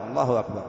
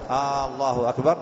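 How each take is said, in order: First: Said in the usual way. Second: "الله أكبر" with a lengthened opening "آ"; "آالله أكبر" as a question, rising at the end; questioning long hamza. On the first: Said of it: "نعم،". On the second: Shown as a demonstration. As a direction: stretch the first vowel of "الله أكبر" into a question. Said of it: "هذا استفهام".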